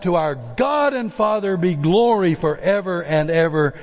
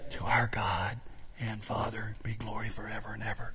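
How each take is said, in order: First: It is shouted loudly and forcefully. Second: It is said at a calm, ordinary volume. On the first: The speaker calls it right. "he shouted it out" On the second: The speaker calls it wrong. "I cannot picture Paul in verse 20 saying"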